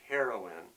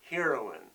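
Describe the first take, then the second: First: The first part does not sound like hero. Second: The first part sounds like the word hero. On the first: "It's also pronounced heroine" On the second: "I like to pronounce it that way, play off the word hero"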